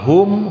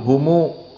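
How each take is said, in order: First: The word ends on the 'm' sound. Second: The word ends with an added 'u' vowel.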